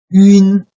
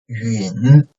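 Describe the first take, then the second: First: The pitch stays high and level. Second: The pitch dips low, then rises slightly.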